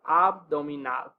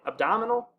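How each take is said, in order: First: Abdominal with open ah and clear o, ab-do-mi-NAL; every vowel pure in abdominal; Spanish abdominal. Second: Abdominal the English way, ub-DAH-muh-nul. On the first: Teacher shows the Spanish word to students. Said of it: "Whereas in English". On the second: Teacher contrasts the English cognate for students. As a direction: reduce the vowels in abdominal. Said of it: "Whereas in English, we'd say". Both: Shown as a demonstration.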